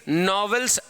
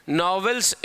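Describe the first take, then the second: The two takes are said the same way.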